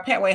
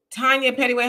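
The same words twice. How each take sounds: First: "Petway" said as two syllables, PET-way; corrected name. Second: "Pettyway" read with an extra middle syllable, PET-ty-way; first name reading. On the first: Host correcting the viewer's name to "Petway" in two syllables. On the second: Host greeting a viewer, misreading the name as "Pettyway". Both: Real, not acted. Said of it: "Uh, Petway".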